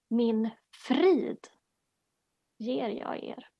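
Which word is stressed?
frid. The stress is on the word 'frid'.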